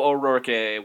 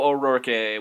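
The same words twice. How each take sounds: First: The name is said with exaggerated, fancy flair. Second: The same.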